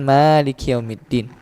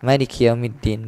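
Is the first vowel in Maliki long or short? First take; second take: long; short. First: The first vowel of Maliki is held long. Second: The first vowel of Maliki is cut short. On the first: Owner of the Day of Judgment. "pemilik hari pembalasan" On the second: King of the Day of Judgment.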